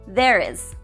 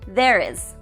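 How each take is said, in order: The two takes are said the same way.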